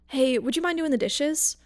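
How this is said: It is asked in a gentle, easygoing tone.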